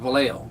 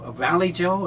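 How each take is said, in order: First: The name is said with a Spanish-style pronunciation. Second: The name is said like English 'Valley Joe'. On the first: This is how local people say it. The speaker calls it right. "what they pronounce it out there is Vallejo" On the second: This is how people far from the town say it. The speaker calls it wrong. "that's why they pronounce it back here"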